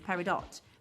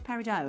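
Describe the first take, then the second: First: It is said with a British pronunciation. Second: It is said with an American pronunciation.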